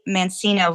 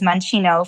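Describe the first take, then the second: First: The name is pronounced in an English-style way. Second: The name is pronounced in an Italian-style way. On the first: This is how the speaker says her own name. "I say Mancino" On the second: This is the original pronunciation that the speaker does not use. "the Italian pronunciation"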